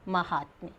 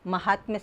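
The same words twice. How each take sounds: First: The first vowel is a long aa sound. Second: The first vowel is short, dropping the long aa. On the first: The speaker calls it right. "इसका शुद्ध शब्द है महात्म्य" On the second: The speaker calls it wrong. "आ का लोप होने से महात्म्य शब्द अशुद्ध बना है"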